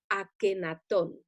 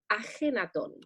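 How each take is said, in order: First: The name is said with a hard k sound. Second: The name is said with a raspy j sound. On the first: The speaker calls it wrong. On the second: The speaker calls it right.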